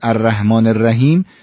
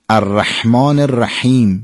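First: The h is a plain soft sound. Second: The h is a tense throaty sound. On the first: The speaker calls it wrong. "انگار با هی دوچش تلفظ کردیم" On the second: The speaker calls it right. "باید مشخص بشه که هی جیمیه"

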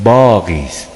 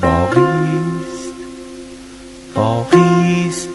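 First: The stress is on the first syllable. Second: The stress is on the second syllable. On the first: The meaning of the word is spoiled. The speaker calls it wrong. "اگر بگویید باقی است یعنی روی با" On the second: It means the story still remains. The speaker calls it right. "باید بگیم باقی است"

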